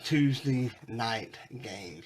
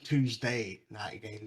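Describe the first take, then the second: First: Tuesday is said in a rural Southern accent. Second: Tuesday is said in a standard accent. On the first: "if you're not a redneck like me" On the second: "if you're not a redneck"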